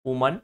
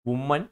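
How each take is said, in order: First: The first syllable sounds like 'woo'. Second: The first syllable sounds like 'woo'.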